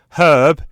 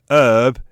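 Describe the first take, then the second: First: The H at the start is pronounced. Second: The H at the start is silent. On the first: It refers to a person's name. "Herb is a name" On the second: It refers to the plant. "Herb is the plant. The H is silent"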